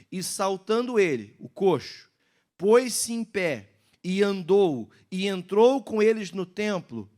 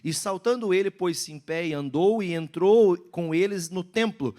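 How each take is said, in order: First: It is read slowly. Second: It is read fast.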